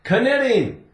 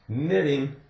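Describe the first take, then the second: First: The k at the start is pronounced. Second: The k at the start is silent. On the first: The speaker calls it wrong. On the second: The speaker calls it right.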